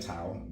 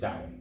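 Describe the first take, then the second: First: The word begins with a T sound. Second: The word begins with a D sound. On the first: This is the common way people say it. "most people say Tao" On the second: This is how it is said in Chinese. "the Chinese way of pronouncing it is Dao"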